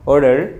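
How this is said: It has a flapped t and pronounced r. "এটাকে যখন আমেরিকানরা বলবে কি অর্ডার"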